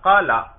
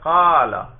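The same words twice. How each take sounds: First: The first vowel is short. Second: The first vowel is drawn out long. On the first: "پہلے تھا قالا" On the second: "اب ہے قالا ... کھینچ کر لمبا کر رہے ہیں"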